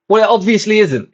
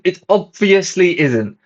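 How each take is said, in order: First: High, louder, fed-up snap back at the ticket guy; exasperated retort. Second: Slow, high, each word leaned on hard; slow emphatic repeat. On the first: To the ticket guy about subtitles, exasperated high retort. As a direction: raise the voice in disbelief. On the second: Repeating it to the smirking ticket guy, slow and pointed. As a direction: spell it out slowly, OBVIOUSLY stressed. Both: Retold or imitated.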